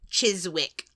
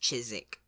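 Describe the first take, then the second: First: The W sound is clearly pronounced. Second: The W sound is left silent. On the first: This is how a Scottish speaker would say it. "I would say" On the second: This is how the place name is actually said. "but it's Chiswick"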